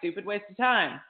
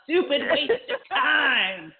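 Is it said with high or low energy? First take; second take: low; high. First: It is said flatly, without energy. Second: It is said with lots of energy.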